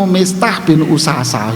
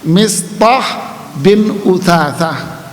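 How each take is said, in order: First: The last name is said with plain 's' sounds. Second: The last name is said with 'th' sounds. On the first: The speaker calls it wrong. "Paling mulutmu Mistah bin Usasa gitu, nggak lulus ente" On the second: The speaker calls it right. "kalau mau belajar makhraj huruf, coba ucapin nama ini, lulus bagus mulutmu mas"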